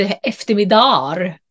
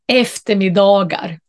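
First: "eftermiddagar" clipped to "eftermiddar"; wrong short form. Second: "Eftermiddagar" with the g fully sounded; full plural. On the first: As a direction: drop the g sound in "eftermiddagar". (felaktigt förkortat "eftermiddagar") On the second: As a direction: say every syllable of "Eftermiddagar". ("Eftermiddagar" med tydligt g) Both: Shown as a demonstration. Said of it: "Där kan man inte".

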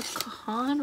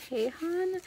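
First: "Kahan" with a short first syllable, stressed on the long "hahn"; name pronunciation guess. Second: "Kahan" with a long "kay" first, questioning lift at the end; alternative name pronunciation. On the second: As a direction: say "Kahan" as KAY-hahn, rising. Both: Shown as a demonstration. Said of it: "never actually looked up how to pronounce".

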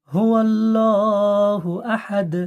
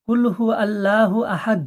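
First: Slow drawn হুয়াল্লাহু আহাদ; slow correct recitation. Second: Fast, clipped কুল হু আল্লাহু আহাদ; rushed wrong reading. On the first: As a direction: stretch it out properly. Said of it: "পড়তে হবে". (ধীরে টেনে সঠিক তিলাওয়াত) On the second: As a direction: hurry through it carelessly. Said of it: "এরকম পড়বেন না". (তাড়াহুড়ো করে ভুল পড়া) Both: Shown as a demonstration.

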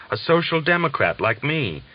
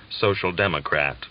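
First: "social democrat" said higher and eager by the German; a prisoner naming his politics, eagerly; excited. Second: Said in the usual way. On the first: Acted. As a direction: lift "social democrat like me" with joy. German says the familiar words.

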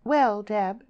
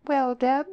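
First: High, loud, haughty address; superior, cool opening; icy superiority. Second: High, loud rise at the end; bright-pitched rising query; questioning echo. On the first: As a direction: talk down to a nosy friend. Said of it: "Lily replied with icy superiority". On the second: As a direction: toss the question straight back. Friend parries the question back. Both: A narrator's reading.

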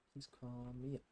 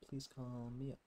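The two takes are said the same way.

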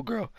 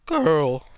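First: Said in the usual way. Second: Voice crack. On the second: Real, not acted. Vlogger catching his own slip on girl, voice crack. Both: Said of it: "Voice crack".

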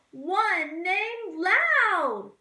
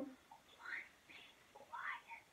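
First: Loud, high, slow call. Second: Slow hushed whisper. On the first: Teacher sings the loud blackbird, loud and high. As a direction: sing it out big and high. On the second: Teacher sings the quiet blackbird in a whisper. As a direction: breathe it out softly. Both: Shown as a demonstration.

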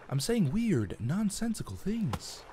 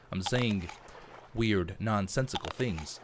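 First: Halting dramatic pauses, rising pitch; William Shatner impression. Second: Said in the usual way. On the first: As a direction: do a bad Shatner, drawn out. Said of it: "the best Shatner impression ever".

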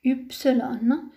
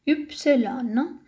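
Both takes have the same delivery.

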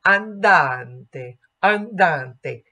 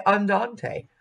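First: Andante with a clean open ah and pure final e; Italian andante. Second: Andante with an English flat an; the lazy English way. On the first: Coach contrasting English and Italian andante. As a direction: give andante its true Italian vowels. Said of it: "but in Italian". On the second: Coach showing the English habit before the Italian. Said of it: "We say andante". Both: Shown as a demonstration.

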